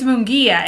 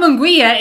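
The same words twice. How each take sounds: First: Munguia said with a hard g and no w, "moon-GHEE-a"; correct Munguia. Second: Munguia said with a gw sound, "moon-GWEE-a"; mispronounced Munguia. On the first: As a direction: say Munguia with a silent u after the g. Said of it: "it's Munguia". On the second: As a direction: say Munguia with an audible w after the g. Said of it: "it's not Munguia". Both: Shown as a demonstration.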